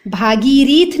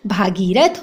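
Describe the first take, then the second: First: "भागीरथ" as bha-gi-reet; wrong pronunciation. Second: "भागीरथ" as bha-gee-rath; short a after r in "भागीरथ"; correct pronunciation. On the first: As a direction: put an i after r in "भागीरथ". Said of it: "नहीं होता". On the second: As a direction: end "भागीरथ" on rath, unhurried. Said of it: "भागीरथ होता है". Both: Shown as a demonstration.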